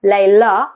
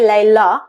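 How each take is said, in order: The two takes are said the same way.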